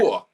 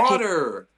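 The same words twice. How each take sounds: First: It is said in a British accent. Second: It is said in an American accent.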